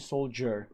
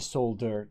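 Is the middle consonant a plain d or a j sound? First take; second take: j sound; plain d. First: The middle consonant is a j sound. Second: The middle consonant is a plain d sound. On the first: The speaker calls it right. "They say soldier" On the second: The speaker calls it wrong. "They don't say soldier"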